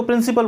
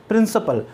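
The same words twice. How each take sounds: First: "प्रिंसिपल" with a clear "ee" in the middle, prin-see-pal; common mispronunciation. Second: Said in the usual way. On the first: Shown as a demonstration. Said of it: "कई लोग उसको प्रिंसिपल बोलते हैं". ("प्रिंसिपल" का गलत उच्चारण, बीच में साफ़ "सी") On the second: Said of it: "उच्चारण सही है".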